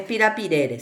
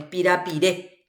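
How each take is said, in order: First: "pirapirere" stressed on RE before an unstressed last syllable; quick "pirapirere", falling away after the stressed vowel; non-final stress. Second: "pirapiré" ending on a stressed É; teacher's end-stressed "pirapiré"; stress on final vowel. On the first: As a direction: say "pirapirere" with an extra, weak final "re". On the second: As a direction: put the weight on the last É of "pirapiré". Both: Shown as a demonstration. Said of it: "Acá no es pirapirere".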